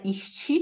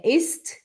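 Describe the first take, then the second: First: "ist" as "ishtchi", with sh and added vowel; wrong pronunciation. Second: "ist" with a crisp s and final t; correct pronunciation. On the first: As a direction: say "ist" with a Brazilian ending, as the mistake. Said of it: "não é ist". ("ist" errado, com chiado e i no final) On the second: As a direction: say "ist" with no sh and no vowel after t. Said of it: "é ist". ("ist" correto, sem chiado nem i no final) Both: Shown as a demonstration.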